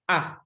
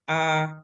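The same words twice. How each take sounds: First: The vowel is short, sharp and quick. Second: The vowel is held slightly longer. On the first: "the one without the, the macron is very sharp and very quick" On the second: "with the macron, slightly longer sound"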